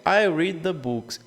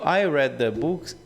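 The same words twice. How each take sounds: First: Read is said with the vowel of reed. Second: Read is said with the vowel of red. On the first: It happens regularly in the present. "Read quando eu falo no presente" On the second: It happened in the past. "eu li os livros"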